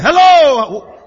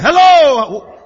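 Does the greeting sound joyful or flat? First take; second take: joyful; joyful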